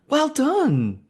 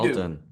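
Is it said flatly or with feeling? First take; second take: with feeling; flatly. First: It is said warmly, with exaggerated feeling. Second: It is said flatly, without enthusiasm.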